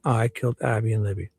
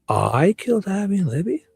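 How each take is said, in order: First: It ends falling, like a statement. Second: It ends rising, like a question.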